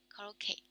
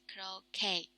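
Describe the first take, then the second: First: The final vowel is a single plain e sound. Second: The final vowel glides from e to i. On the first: The speaker calls it wrong. "It's just E" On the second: The speaker calls it right. "But actually it's croquet. it's double vowels on here"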